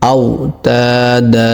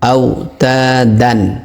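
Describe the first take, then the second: First: The word ends with a lengthened vowel. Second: The word ends with an n sound. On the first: The reader stops on this word. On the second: The reading continues without stopping.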